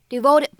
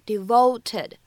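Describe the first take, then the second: First: The t is a quick, soft flap. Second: The t is a clear, aspirated stop. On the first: The speaker calls it right. "在美式发音当中末尾呢存在一个闪音的处理" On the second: The speaker calls it wrong. "并不需要读成devoted，它的这个t 的发音呢没有这么清晰的送气"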